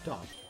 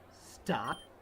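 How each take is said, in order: First: It is said weakly, without force. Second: It is said forcefully, with strong force.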